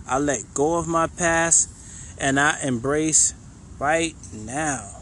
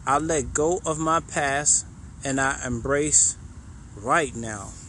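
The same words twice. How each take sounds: First: Slow affirmation. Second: Said in the usual way. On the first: Shown as a demonstration. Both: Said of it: "the last one we're gonna do".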